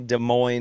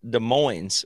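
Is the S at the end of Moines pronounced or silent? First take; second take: silent; pronounced. First: The final S of Moines is silent. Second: The final S of Moines is pronounced. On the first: This names the city in Iowa. "It's definitely Des Moines, Iowa" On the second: This names the city in Washington. "which is pronounced the S"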